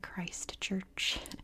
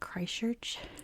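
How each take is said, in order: First: The middle t and ch sounds are clearly pronounced. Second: The middle t and ch sounds are dropped. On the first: It is said so listeners can understand. "I have to say it very carefully" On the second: It is the speaker's natural Californian way. "we don't say the T's in the middle of words, and we barely pronounce C H's"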